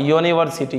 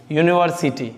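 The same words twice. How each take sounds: First: यूनिवर्सिटी said as "yo-niversity"; initial "yo" sound. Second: Said in the usual way. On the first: Shown as a demonstration. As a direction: bring out a "yo" at the start of यूनिवर्सिटी. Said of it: "यो आता है". (यूनिवर्सिटी को "योनिवर्सिटी" जैसा, शुरू में "यो" दिखाकर) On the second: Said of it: "अब देखिए".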